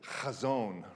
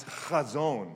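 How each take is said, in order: First: "chazon", first try with a light h; Hebrew word. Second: "chazon" slowly with a throaty h at the back of the throat; Hebrew guttural. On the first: Pastor trying the Hebrew "chazon", plain h, first try. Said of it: "now I'm gonna see if I can get it". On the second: Pastor teaching the congregation "chazon", slow, with a throaty ch. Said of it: "you gotta get something in the back". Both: Shown as a demonstration.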